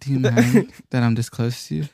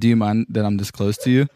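First: It is said in a sultry, seductive way. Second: It is said in a plain, flat way.

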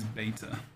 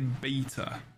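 First: It is said the American way. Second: It is said the British way.

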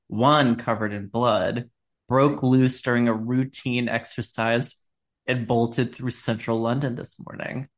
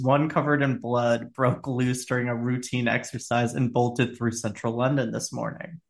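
First: It is read slowly, like a story. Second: It is read quickly, as plain news.

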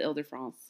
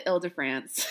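First: The name is said with a French accent. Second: The name is said with a flat English accent.

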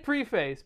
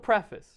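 First: The second syllable has a long A vowel. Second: The second syllable has a short, reduced vowel. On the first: "You can say preface" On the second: "but it's also preface"

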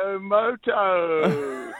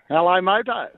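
First: It is said in a put-on accent. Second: It is said in his normal voice.

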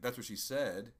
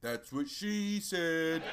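First: It is said as a plain, literal statement. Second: It is said with a jokey punchline inflection. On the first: Someone earlier said those exact words. "the inflection would have been" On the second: What was just said sounds sexual. "Instead of"

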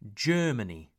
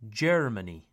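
First: The R sound is not heard. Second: The R sound is clearly pronounced. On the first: The speaker calls it right. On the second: The speaker calls it wrong.

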